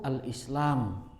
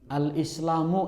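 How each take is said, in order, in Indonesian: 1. Kata ini berakhir dengan konsonan. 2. Kata ini berakhir dengan vokal. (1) "tidak perlu dibaca u, cukup al-Islam" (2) "harusnya dibaca u-nya itu"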